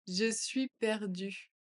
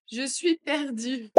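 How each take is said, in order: First: Said in the usual way. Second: Louder and slower, a touch higher. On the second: Shown as a demonstration. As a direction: say it out loud, slowly. (plus fort et lent) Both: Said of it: "phrase modelled twice".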